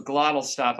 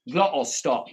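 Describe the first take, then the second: First: Said in the usual way. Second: "Glottal stop" with the T's caught in the throat, louder. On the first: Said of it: "you gotta do a glottal stop". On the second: Shown as a demonstration. Streamer teaching a Tate accent, "Glottal stop" with throat-stopped T's. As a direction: say "Glottal stop", cutting each T off back in the throat. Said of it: "do a glottal stop on the T's".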